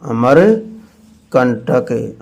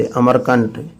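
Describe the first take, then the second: First: Amarkantak stretched out slowly, every syllable held; drawn-out Amarkantak, as if teaching the correct name; slow, drawn-out naming. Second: Said in the usual way. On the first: Shown as a demonstration. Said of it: "Amarkantak जानते हो ना?".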